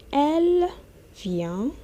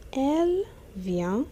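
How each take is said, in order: Both takes have the same delivery.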